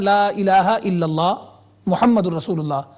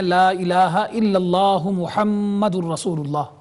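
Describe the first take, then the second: First: There is a pause after illallah. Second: It runs on without a pause after illallah.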